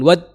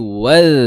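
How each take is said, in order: First: The final consonant is a short stopped sound. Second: The final consonant is a continuous flowing sound. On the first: The speaker calls it wrong. "Bukan wad, itu nggak ngalir" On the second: The speaker calls it right. "tapi wal. Nah, ngalir"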